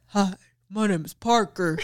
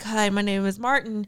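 First: It is said in a put-on deep voice. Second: It is said in a normal voice.

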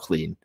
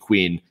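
First: The word starts with a 'kl' sound. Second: The word starts with a 'kw' sound. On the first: The speaker calls it right. "I'm very attentive when I say the word clean now" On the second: The speaker calls it wrong. "all of a sudden I would notice when I would say queen"

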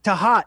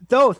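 First: The name is said as two syllables. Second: The name is said as one syllable. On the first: The speaker calls it right. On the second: The speaker calls it wrong.

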